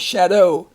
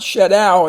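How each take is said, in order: First: The last syllable ends in a long O. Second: The last syllable does not end in long O. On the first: The speaker calls it right. "the O W makes the long sound" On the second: The speaker calls it wrong. "Not shadow"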